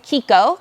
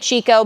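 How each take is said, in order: First: The name begins with a k sound. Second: The name begins with a ch sound. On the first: "the brand actually wants you to pronounce it Kiko" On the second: "Some people say Chico"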